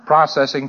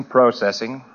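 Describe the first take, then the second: First: Processing said as PRAH-cessing, short open first vowel; processing with the American PRAH-cessing. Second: Processing. said as PROH-cessing, long oh in the first syllable; processing. with the British PROH-cessing. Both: Shown as a demonstration. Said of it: "I have to pronounce processing".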